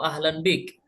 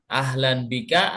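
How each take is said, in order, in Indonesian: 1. Vokal pendek akhir dihilangkan di akhir. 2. Vokal pendek akhir diucapkan di akhir. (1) "kita sukunkan semuanya" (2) "apakah kita baca kalimat atau huruf terakhir"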